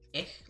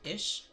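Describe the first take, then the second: First: The word ends with a hard k sound. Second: The word ends with a soft sh sound. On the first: "as some people say, ich, like ick. No" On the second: "they pronounce it kind of like ish"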